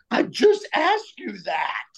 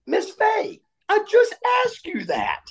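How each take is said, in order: First: Higher, slowed indignant retort; mock outburst. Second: Much higher, strained cry at the teacher; unglued outburst. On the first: Student to teacher after failing, slowed higher indignant retort. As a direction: snap it back at her, higher and slow. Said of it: "In that voice". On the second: Retold or imitated. Student losing it at teacher Miss Fay, much higher outburst. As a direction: lose it completely, pitch flying up. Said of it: "I came unglued".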